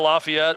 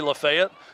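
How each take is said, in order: First: It is said the standard, outside way. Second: It is said the local Tennessee way. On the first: This is how it is said elsewhere. "instead of Lafayette" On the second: This is how people here say it. "the same way we say Lafayette"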